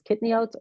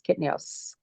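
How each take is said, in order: First: The word ends with a t sound. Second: The word ends with an s sound. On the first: "like Israelis kitniot" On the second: "Americans kitnios"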